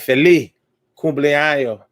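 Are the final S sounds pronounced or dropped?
dropped. The final S sounds are dropped, Caribbean style.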